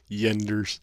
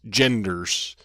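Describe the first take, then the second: First: The word begins with a y sound. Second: The word begins with a j sound. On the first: The speaker calls it wrong. "they're the only people I know that have trouble pronouncing G's in English" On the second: The speaker calls it right. "It's genders"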